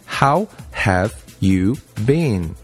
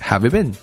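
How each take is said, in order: First: It is said slowly, each word separate. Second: It is said fast, with words linked.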